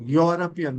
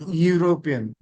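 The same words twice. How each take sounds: First: "European" begun with a "yaw" sound, YAW-rup-ian; correct pronunciation. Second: "European" begun with "you", you-RO-pian; wrong pronunciation. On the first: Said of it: "not European". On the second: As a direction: say "European" as yoo-ro-pian, the mistaken way. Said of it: "European is wrong". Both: Shown as a demonstration.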